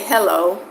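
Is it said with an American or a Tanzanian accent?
American. It is said with an American accent.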